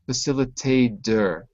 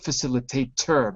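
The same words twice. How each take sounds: First: The T is a soft D-like sound. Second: The T is a clear, sharp T sound. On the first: The speaker calls it right. "the T is a D, ... but facilitator" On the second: The speaker calls it wrong. "not facilitator"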